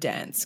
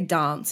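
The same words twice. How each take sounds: First: It is said in a general Australian accent. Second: It is said in an Adelaide accent.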